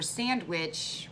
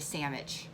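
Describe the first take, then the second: First: The middle is said with a full 'nd' sound. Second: The middle is shortened to an 'mm' sound. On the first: "For sandwich" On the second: "we just shorten it to sandwich. S A M M I C H"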